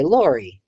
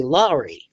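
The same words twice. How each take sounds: First: "Lori" with a rounded first vowel, like lore; own name pronunciation. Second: "Laurie" with an ah in the first syllable; Cincinnati pronunciation. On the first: Shown as a demonstration. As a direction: say "Lori" as LOR-ee, with an or sound. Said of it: "so I say Lori". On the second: Retold or imitated. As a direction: say "Laurie" as LAH-ree, with an open vowel. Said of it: "you're saying your name wrong".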